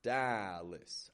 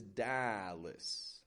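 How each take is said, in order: First: The second syllable has a weak, reduced vowel. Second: The second syllable has a weak, reduced vowel.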